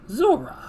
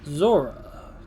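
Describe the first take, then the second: First: It is said in a high Joker-style head voice. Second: It is said in a normal character voice.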